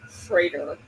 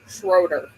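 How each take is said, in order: First: The vowel sounds like 'ay' in 'say'. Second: The vowel sounds like 'oh' in 'go'. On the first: This is how locals say it. The speaker calls it right. "If from this area it is pronounced Schrader" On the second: This is how outsiders say it. The speaker calls it wrong. "it is not pronounced Schroeder here"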